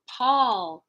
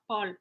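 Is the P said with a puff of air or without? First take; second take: with; without. First: The P has a puff of air. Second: The P has no puff of air. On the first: The speaker calls it right. "We want to talk about Paul" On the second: The speaker calls it wrong. "not Paul"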